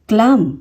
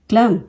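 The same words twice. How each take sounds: No difference in how they are said.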